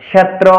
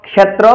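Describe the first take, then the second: No difference in how they are said.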